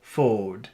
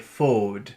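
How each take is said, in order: First: The word is said with little air pushed out. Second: The same.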